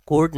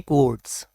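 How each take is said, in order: First: कोट with no w glide; wrong pronunciation. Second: कोट्स said as "kwotes"; correct pronunciation. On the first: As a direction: say कोट like "coat". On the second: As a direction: put a w glide after the k in कोट्स. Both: Shown as a demonstration. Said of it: "तो कोट नहीं".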